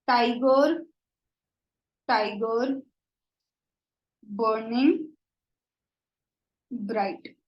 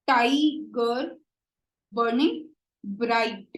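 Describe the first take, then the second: First: Slow, spaced recital of the line; measured poetry reading; poem recital. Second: "tiger" and "burning" each hit on the first syllable, slow; slow beat-by-beat stress on "burning bright". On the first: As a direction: read the verse aloud with long pauses. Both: Shown as a demonstration. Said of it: "the stress is on".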